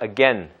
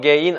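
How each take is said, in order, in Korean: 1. 둘째 모음은 'eh'처럼 소리 납니다. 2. 둘째 모음은 'ay'처럼 소리 납니다. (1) "그것이 올바른 발음이고" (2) "again 아니라"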